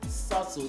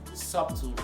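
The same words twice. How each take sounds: First: No b sound is heard in the middle. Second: A b sound is heard in the middle. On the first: The speaker calls it right. "The B is voiceless" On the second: The speaker calls it wrong. "pronouncing this word as subtle"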